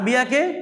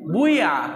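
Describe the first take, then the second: First: The first vowel is a plain i sound. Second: The first vowel is rounded toward u. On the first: "বিয়াকে বুইয়া" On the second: "জেরকে পেশের মতো করে পড়া"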